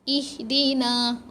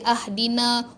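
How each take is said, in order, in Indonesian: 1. Kata ini dimulai dengan vokal i. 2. Kata ini dimulai dengan vokal a. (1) "Oh, baris bawah lah" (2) "Dia tak akan jadi ahdina"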